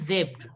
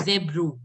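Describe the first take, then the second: First: Zebra as "zebr", dropped low; correct pronunciation. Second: Zebro with a full "roo" ending; wrong take, zebro as "zeb-roo"; mispronunciation demo. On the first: Shown as a demonstration. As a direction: say zebra stopping at the br. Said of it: "It is zebra only". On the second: Retold or imitated. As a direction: imitate students saying zebro with an extra vowel. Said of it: "you people were pronouncing it as".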